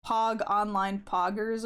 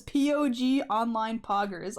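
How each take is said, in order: First: "Pog" read as one syllable, rhyming with "dog"; Pog said as a word. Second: "P O G" said letter by letter; first Pog spelled out. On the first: Shown as a demonstration. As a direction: say "Pog" as a single word, not letters. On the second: Retold or imitated. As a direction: spell out "P O G", then say "Poggers" as a word. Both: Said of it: "doesn't pronounce the first Pog as Pog anymore".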